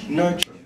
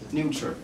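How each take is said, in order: First: The word sounds like nurture. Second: The word sounds like neuter. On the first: The word means raising and caring for someone. The speaker calls it right. "This is pronounced as nurture" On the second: The word means cutting something off. The speaker calls it wrong. "but I heard nurture"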